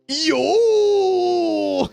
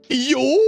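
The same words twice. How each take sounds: First: It ends with a laugh. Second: It ends cleanly without a laugh.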